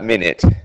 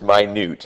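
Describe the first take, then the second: First: The stress is on the first syllable. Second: The stress is on the second syllable. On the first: It means a unit of time. The speaker calls it wrong. "not minute, not time" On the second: It means extremely small. The speaker calls it right. "that word is minute"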